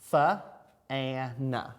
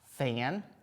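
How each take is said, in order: First: The word is sounded out slowly, sound by sound. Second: The word is said quickly as one whole. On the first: "I'm going to say it a little bit slower" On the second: "Now I can read them a little bit quicker"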